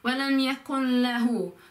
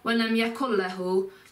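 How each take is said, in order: First: The N blends into the L as half. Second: The N is dropped completely before the L. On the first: The speaker calls it right. "It's like a mixture of the um, N sound and the L sound" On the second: The speaker calls it wrong. "But don't miss out the N altogether. So it's not walam yakun lahu"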